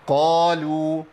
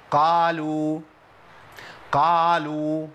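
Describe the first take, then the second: First: قالوا with a rounded heavy qaf, lips kept close, long and chanted; partly opened qaf. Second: قالوا with the qaf opened fully wide, long chanted alif; over-opened qaf. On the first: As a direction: chant قالوا with only partial opening on قا. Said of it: "جزئي". (قالوا بانفتاح جزئي والشفتين قريبين) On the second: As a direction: chant قالوا with the mouth opened too far on قا. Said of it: "بيعمل انفتاح كلي". (قالوا بانفتاح كلي في القاف) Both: Shown as a demonstration.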